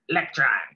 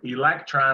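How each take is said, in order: First: The first vowel is dropped, so it starts with L. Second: The word begins with a clear E vowel sound. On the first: "I just say electron. Electron starts with an L" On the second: "instead of saying the word electron"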